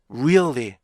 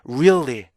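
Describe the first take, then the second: Both takes have the same delivery.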